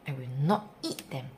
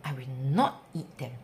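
The two takes are said the same way.

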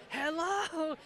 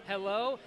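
First: High, drawn-out parrot hello; raised imitated parrot call; parrot getting insistent. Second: Said in the usual way. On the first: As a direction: stretch it upward like a parrot calling. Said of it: "and it'd get more". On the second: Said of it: "this parrot would always say".

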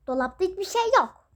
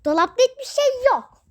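First: Said in the usual way. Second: Higher and louder, pressing the point; insistent repeat. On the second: Acted. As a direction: Dolapta hiçbir şey yok, repeated louder and higher. (daha yüksek sesle, ısrarla) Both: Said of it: "repeated louder".

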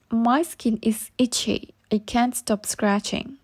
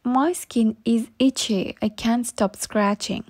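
The two takes are said the same way.

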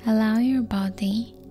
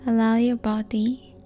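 Both takes have the same delivery.

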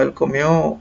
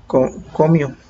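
First: "comió" stressed on its last syllable, the O; stress on final O. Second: "comió" said as CÓmio, stress on the first syllable, after a false start; misplaced stress on CO. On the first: Teacher showing students the accented verb, "comió" stressed on final O. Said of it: "poner el acento en la O". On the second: Teacher showing the unaccented verb, "comió" stressed as CÓmio. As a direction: stumble into "comió" with the accent on CO. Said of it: "porque si no va a decir". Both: Shown as a demonstration.

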